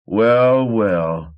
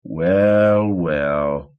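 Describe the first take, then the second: First: Drawn-out gloating well, well; gloating over the body; smug drawl. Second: Sneering at the dead man; smug repeat. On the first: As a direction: savour the kill, smug. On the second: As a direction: repeat it, even smugger. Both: A narrator's reading. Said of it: "he repeated".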